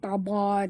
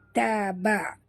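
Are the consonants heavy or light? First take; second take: heavy; light. First: The consonants are heavy and thick. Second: The consonants are light and thin. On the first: The speaker calls it wrong. "bukan taba" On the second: The speaker calls it right. "tapi taba"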